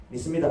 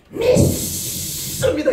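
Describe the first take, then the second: First: Low, soft, quick profession; half-hearted belief. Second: High, long-drawn hissing cry of faith; mock fervent shout. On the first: Acted. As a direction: say it small, without any zeal. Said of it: "이러면 안 나고". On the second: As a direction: stretch it out in exaggerated zeal. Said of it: "그냥 목소리로 믿는 게 아닙니다".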